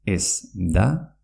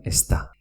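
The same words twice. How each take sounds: First: Said in the usual way. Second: "está" as es-ta, not es-da. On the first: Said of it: "se pronuncia está". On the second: Shown as a demonstration. Teacher repeats the merged form, d as t. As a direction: run "está" together with a hard t. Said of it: "se pronuncia".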